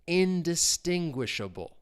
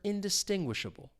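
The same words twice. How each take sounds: First: The word is said slowly. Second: The word is said faster. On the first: "We'll say it slowly" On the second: "A little faster"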